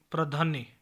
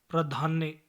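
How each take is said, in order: Both takes have the same delivery.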